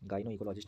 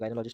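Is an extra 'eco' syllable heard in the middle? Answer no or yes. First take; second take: yes; no. First: The middle 'eco' syllables are clearly pronounced. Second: The middle 'eco' syllables are dropped from the word. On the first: The speaker calls it right. "गाइनो इकोलॉजिस्ट है" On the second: The speaker calls it wrong. "गाइनोलॉजिस्ट नहीं है ये"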